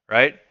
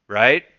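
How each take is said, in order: No difference in how they are said.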